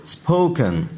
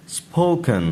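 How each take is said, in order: Both takes have the same delivery.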